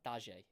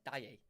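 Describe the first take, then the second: First: The middle consonant sounds like a J. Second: The middle consonant sounds like a Y. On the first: The speaker calls it wrong. "Presume you wouldn't pronounce the J. That doesn't sound right" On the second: The speaker calls it right. "Is it like a A? Like Daye"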